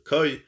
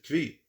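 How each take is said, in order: First: The word has no v sound after k. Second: The word has a v sound after k. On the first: "pronounced Koi" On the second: "Some pronounce it as Kvi"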